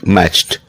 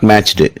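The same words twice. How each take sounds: First: The ending is a plain t sound. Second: The ending is not a plain t sound. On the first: The speaker calls it right. "T sound" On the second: The speaker calls it wrong. "Not matched"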